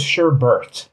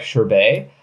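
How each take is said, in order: First: "sherbet" with an r in both syllables; "sherbet" with "bert" as its ending; pronounced sher-bert. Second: "sherbet" ending in a long "bay"; "sherbet" rhymed with sorbet; pronounced sher-bay. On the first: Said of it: "I thought it was". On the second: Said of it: "so it's spelled sher". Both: Shown as a demonstration.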